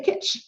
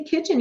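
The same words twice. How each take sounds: First: "kitch", the last syllable left off; dropped ending. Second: Said in the usual way. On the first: Shown as a demonstration. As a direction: cut the word short at "kitch". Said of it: "and you drop the N". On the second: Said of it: "Maybe you wanna say kitchen".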